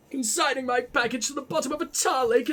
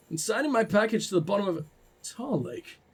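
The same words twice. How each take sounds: First: Posh letter-writer's reproach. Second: Said in the usual way. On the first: Acted. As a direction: read the accusation in a lofty posh accent. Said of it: "I gotta do the posh voice".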